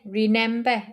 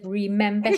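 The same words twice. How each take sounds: First: The middle consonant is pronounced as an N. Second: The middle consonant is pronounced as an M. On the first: This imitates how someone else says it. The speaker calls it wrong. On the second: This is the usual way to say it. The speaker calls it right.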